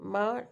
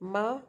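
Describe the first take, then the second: First: The pitch dips low, then rises. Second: The pitch rises from mid to high. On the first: It means horse. "dipping tone" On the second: It means hemp. "rising tone means hemp"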